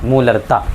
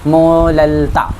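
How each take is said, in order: First: The middle consonant is a clear R sound. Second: The middle consonant is an L sound. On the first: An older child is saying it clearly. "मोलरता अगर साफ साफ बोल रहा है" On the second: A small child is saying it. "छोटे बच्चे रा नहीं बोल पाते हैं"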